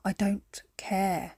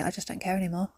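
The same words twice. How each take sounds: First: A slow, whispered resignation. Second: Resigned quote. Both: Retold or imitated. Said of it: "where you just say".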